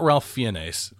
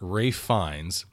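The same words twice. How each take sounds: First: The name is pronounced as its spelling suggests. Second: The name is pronounced unlike its spelling. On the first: The speaker calls it wrong. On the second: The speaker calls it right.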